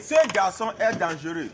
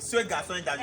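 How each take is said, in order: First: Ce pushed out loud at the start of the sentence; stress on ce. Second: Ce given a firm lift, the rest kept level; stress on ce. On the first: Teacher stressing Ce for students, loud model. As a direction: lean on the word Ce for the class. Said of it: "He, the boy is dangerous". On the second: Teacher correcting a student, stressing Ce. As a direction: mark the word Ce as the demonstrative. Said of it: "I taught you the demonstration adjective". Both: Shown as a demonstration.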